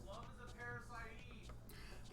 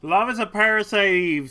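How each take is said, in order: First: Distant faint voice from another room; soft, muffled, as if through a wall. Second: Loud and proud, right up close; loud declaration. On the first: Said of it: "says Marie from the other room". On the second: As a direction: belt it out up close. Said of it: "says Marie". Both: Pretend.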